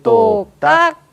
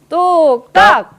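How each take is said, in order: First: The word is said softly and gently. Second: The word is said loudly and forcefully. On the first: The speaker calls it wrong. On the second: The speaker calls it right.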